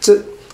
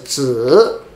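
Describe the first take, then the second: First: The syllable is short and unstressed, without tone. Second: The syllable carries a full, stressed tone. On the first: It only serves to form a compound word. "there's a no tone or light tone" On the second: It is the standalone word, as in names like 老子. "this pronoun could pronounce as 子, like 老子"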